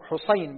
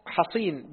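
First: حصين as ḥuṣayn, short u first; damma on ḥa. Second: حصين as ḥaṣīn, short a first; fatha on ḥa. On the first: Student reading names to his teacher, حصين as ḥuṣayn. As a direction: round the ح of حصين with u, then ay. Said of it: "بضم الحاء". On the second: Student reading names to his teacher, حصين as ḥaṣīn. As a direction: open the ح of حصين with a, then long ī. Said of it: "بفتح الحاء". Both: Shown as a demonstration.

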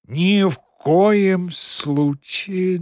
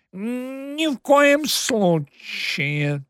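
First: Slow, loud, drawn-out protest; Margarita's outburst. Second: Anxious hissed prompt, drawn out; prompter's whisper. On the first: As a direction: start a shocked objection. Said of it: "начала Маргарита". (возмущённое восклицание) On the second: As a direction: hiss it like a stage prompter. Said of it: "тревожно свистнул по-суфлёрски над ухом". (тревожный суфлёрский шёпот) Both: A narrator's reading.

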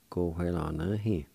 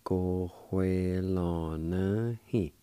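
First: Said in the usual way. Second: Cojuelanahi very slowly, syllables stretched and joined; slow pronunciation demo. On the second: Shown as a demonstration. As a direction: draw out every syllable of Cojuelanahi. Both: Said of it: "It's pronounced like this".

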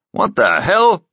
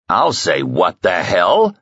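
First: Much higher startled cry, leaning on hell; startled outburst. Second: Slow, heavy thug voice leaning on hell; menacing thug. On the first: A narrator's reading. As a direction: caught off guard, stress hell. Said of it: "said Broad Oki". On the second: Acted. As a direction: drag out what the hell as a threat. Thug Hans repeats, menacing.

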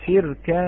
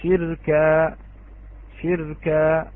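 First: شركا said shirkan with clear final n; louder شركا ending on -an; nunation on the kaf. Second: شركا with the tanween dropped, ending on a long a; pausal form. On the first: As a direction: sound the tanween in شركا. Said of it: "الكاف منونة". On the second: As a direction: stop on شركا as shirka. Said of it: "وإذا وقفنا". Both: Shown as a demonstration.

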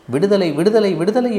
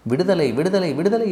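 First: Loud, high plea for freedom; desperate cry. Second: High, excited cry of freedom; jubilant calling out. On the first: Caged parrot begging for release, crying out desperately. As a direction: cry out in anguish, pitched high. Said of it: "என்று நான் கதறும்படியாகிவிட்டது". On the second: Parrot fleeing its opened cage, calling out in joy. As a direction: call it out high while making a getaway. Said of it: "என்று கூவிக்கொண்டே எடுத்தேன் ஓட்டம்". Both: A narrator's reading.

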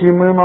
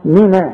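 First: من as MINA with a dark A; wrong heavy noon. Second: من as MINA with a thin A; light noon. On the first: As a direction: thicken NA at the end of من. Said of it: "اذا ما تقولش". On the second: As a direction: keep NA in من light. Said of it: "كل نون في القرآن نا". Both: Shown as a demonstration.

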